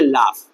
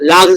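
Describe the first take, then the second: First: The word ends with an f sound. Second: The word ends with a g sound. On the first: The speaker calls it right. "Hundred percent guarantee word का उच्चारण यही है" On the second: The speaker calls it wrong. "लाग से नहीं पढ़ेंगे"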